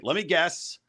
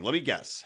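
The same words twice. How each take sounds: First: Lightly voiced carnival barker; a hint of a fairground barker. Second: Said in the usual way. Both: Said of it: "We're doing the carnival thing".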